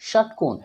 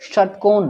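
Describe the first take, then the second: First: The sh sound is made at the front palate. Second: The sh sound is made with the tongue curled back. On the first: The speaker calls it wrong. "न कि षटकोण, ये तालब श का उच्चारण नहीं करना" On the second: The speaker calls it right. "ऐसे बोलना"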